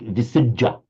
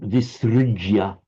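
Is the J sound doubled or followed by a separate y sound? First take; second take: doubled; y sound. First: The J is doubled with no y sound after it. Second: A J is followed distinctly by a y sound. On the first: This is the Pali form of the word. "If it were in Pali, it would become a double J" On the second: This is the Sanskrit form of the word. "Visrigia in, in Sanskrit"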